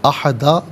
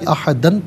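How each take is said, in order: First: The word ends on a bare long vowel. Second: The word ends with an 'n' sound. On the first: The reading stops at the word. "वफ़ की सूरत में इसे अहदा पढ़ा जाएगा" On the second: The reading continues past the word. "इसे अहदन पढ़ेंगे"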